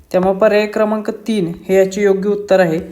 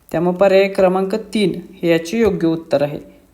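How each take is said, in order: No difference in how they are said.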